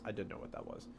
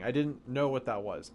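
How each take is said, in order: First: Much softer, dropped-away repeat; quiet echo. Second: Said in the usual way. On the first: Shown as a demonstration. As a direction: repeat it almost under your breath. Echoing a chat reply.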